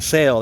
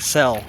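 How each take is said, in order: First: The vowel is the long 'ay' sound. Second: The vowel is the short 'eh' sound. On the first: "Instead of saying sail" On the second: "they say cell. It's like a Mississippi pronunciation"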